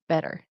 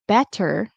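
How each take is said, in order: First: The middle consonant is a quick D. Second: The middle consonant is a clear T. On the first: "it's going to turn into a quick D" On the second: "Instead of saying better"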